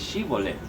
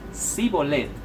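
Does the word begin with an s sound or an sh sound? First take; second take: sh; s. First: The word begins with an sh sound. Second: The word begins with a plain s sound. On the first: It marks the speaker as a local. The speaker calls it right. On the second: It reveals the speaker is from another region. The speaker calls it wrong.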